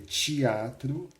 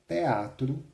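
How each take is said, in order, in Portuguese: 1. É falado com sotaque carioca. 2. É falado com sotaque pernambucano. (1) "que um carioca diga teatro" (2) "um pernambucano, lendo em voz alta, diga teatro"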